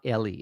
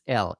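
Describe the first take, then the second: First: The name is said with two syllables. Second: The name is said with one syllable. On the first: The speaker calls it wrong. "It's not Ellie" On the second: The speaker calls it right. "It's L"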